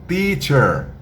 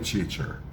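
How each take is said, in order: First: The first sound is a plain 't' sound. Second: The first sound is a hissing 'ch' sound. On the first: The speaker calls it right. "eu sou teacher" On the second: The speaker calls it wrong. "não fale teacher. Teacher parece mais quando a gente ouve que você está dizendo cheater"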